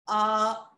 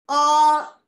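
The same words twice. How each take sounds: First: The vowel is said at a neutral pitch. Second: The vowel is said at a high pitch. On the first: "and in the neutral" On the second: "saying it in the high pitch"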